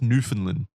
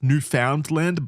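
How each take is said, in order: First: The word is said differently from its spelling. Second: The word is said just as it is spelled. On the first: The speaker calls it right. "It's like pronounced Newfoundland or something" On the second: The speaker calls it wrong. "It looks like it should be pronounced Newfoundland"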